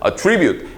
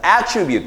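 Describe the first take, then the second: First: The stress is on the second syllable. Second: The stress is on the first syllable. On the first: It is a verb meaning to blame A on B. "액센트가 뒤로 오거든요. 동사로 쓸 때는" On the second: It is a noun meaning a feature or property. "명사로 쓰여서 액센트가 앞으로 오면서"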